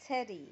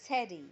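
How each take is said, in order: First: The t is a soft American flap. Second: The t is a soft American flap.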